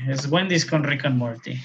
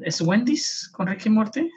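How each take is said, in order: First: Said in the usual way. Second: High, doubtful asking tone; unsure question. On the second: Real, not acted. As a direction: ask it as if unsure. Unsure, checking the ad's name.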